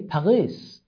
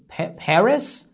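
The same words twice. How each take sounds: First: The r is a throaty sound made in the back. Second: The r is a plain English-style r. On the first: "they pronounce the character R like ghain in Arabic" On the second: "Instead of saying Paris"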